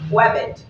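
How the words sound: The word begins with a W-like sound. "They don't pronounce the word R in British English, so it'll be sounding like webbit"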